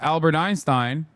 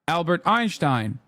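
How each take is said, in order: First: Einstein is pronounced with English sounds. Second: Einstein is pronounced with Turkish sounds. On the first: "when I'm talking about Albert Einstein in English" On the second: "I accidentally say Albert Einstein"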